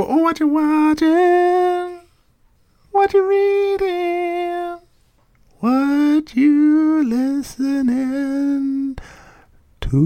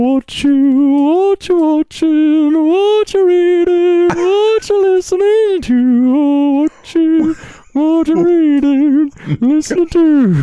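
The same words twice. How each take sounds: First: High, slow falsetto sing-song; jingle voice impression. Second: Loud high slow yell of the jingle. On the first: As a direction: stretch each question out in a thin high voice. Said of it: "when you don't get the voice". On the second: Retold or imitated. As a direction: belt the questions out high. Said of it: "just yell".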